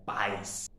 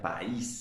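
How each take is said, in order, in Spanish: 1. El acento está en la a, una sílaba. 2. El acento está en la i, dos sílabas. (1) "el acento fuerte volvería nuevamente a la vocal abierta, en este caso la A ... Y sería solo una sílaba" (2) "ya no sonaría país"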